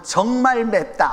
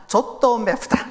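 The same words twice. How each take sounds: First: Said in the usual way. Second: Put-on slow Korean with a Japanese accent. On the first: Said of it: "어떻게 말하냐". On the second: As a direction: sound like a Japanese learner. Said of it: "이렇게 말해요".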